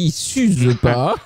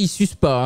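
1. Les mots sont dits avec soin et distinctement. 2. Les mots sont enchaînés rapidement. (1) "J'ai dit ils s'usent pas" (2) "je n'ai pas dit ils s'usent pas"

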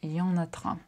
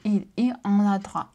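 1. Слова сливаются, и начальное 'il' опускается. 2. Произносится каждое слово, начиная с 'il'.

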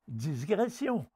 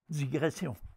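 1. Un son s supplémentaire vient avant le g. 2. Aucun son s ne vient avant le g. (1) "Ce sont également des barbarismes lexicaux" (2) "au lieu de"

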